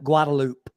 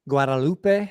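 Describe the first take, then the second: First: The name is pronounced with local English sounds. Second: The name is pronounced with Spanish sounds. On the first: This is how locals say the street name. "we just call it Guadalupe" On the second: This is how the word is said in Spanish. "in Spanish, the word Guadalupe"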